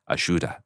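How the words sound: The middle consonant is a 'sh' sound. "there's a lot of sh, sh, sh ... they say ayuda"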